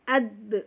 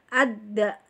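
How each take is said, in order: First: The final d ends in a short echoing bounce. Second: The final d is followed by a full vowel. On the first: The speaker calls it right. "dipantulkan ya" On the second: The speaker calls it wrong. "Jangan dihidupkan. Kalau ada, itu berarti ada"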